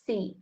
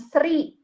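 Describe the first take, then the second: First: No r sound is heard after the s. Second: An r sound is heard after the s. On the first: The speaker calls it right. "Jadi dibacanya si" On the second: The speaker calls it wrong. "bukan sri gitu ibaratnya"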